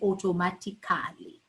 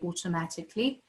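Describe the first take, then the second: First: The 'al' sound before -ly is clearly pronounced. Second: The 'al' sound before -ly is left silent. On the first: The speaker calls it wrong. "we don't say automatically" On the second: The speaker calls it right. "that uh is silent. So we say automatically"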